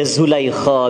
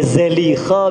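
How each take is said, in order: First: The first syllable has a 'u' vowel. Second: The first syllable has an 'a' vowel. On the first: "Eh baca Zulaikha bisa" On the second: "eh baca Zalikha bisa"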